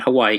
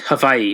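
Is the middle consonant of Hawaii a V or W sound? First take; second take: W sound; V sound. First: The middle consonant is a W sound. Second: The middle consonant is a V sound. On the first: The speaker calls it wrong. "not Hawaii" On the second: The speaker calls it right. "the W is a V. It's Hawaii"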